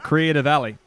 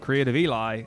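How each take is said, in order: First: The last part sounds like 'Ellie' with a short e. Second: The last part sounds like 'Eli' with a long e. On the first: The speaker calls it right. "So Creative Ellie" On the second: The speaker calls it wrong. "I called him Creative Eli"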